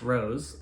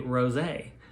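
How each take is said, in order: First: It is said with one syllable, like the flower. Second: It is said with two syllables, ending in 'ay'. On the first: It names a flower. "it seems like it would be called a French rose" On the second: It names a wine. "there's a accent here on like it would be rosé, which to me is wine"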